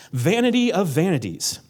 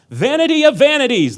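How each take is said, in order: First: Said in the usual way. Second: High, loud proclaiming shout; yelled. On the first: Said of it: "so you gotta yell that". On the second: Shown as a demonstration. Preacher yelling the verse at the congregation. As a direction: yell it like the exclamation point demands. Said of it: "There's an exclamation point, so you gotta yell that".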